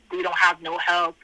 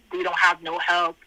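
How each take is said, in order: Both takes have the same delivery.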